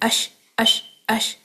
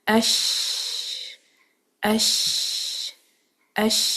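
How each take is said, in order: First: The sh sound is cut short and bounced. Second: The sh sound is held continuously. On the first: The speaker calls it wrong. "इसको बाउंस करने की ज़रूरत नहीं है। अश अश अश इस तरह नहीं पढ़ना।" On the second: The speaker calls it right. "यूं करके आवाज़ को जारी रखें।"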